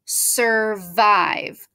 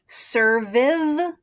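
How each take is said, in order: First: The second vowel is a long 'eye' sound. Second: The second vowel is a short 'i' sound. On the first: The speaker calls it right. "I need to say I instead of it" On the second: The speaker calls it wrong. "That doesn't sound right"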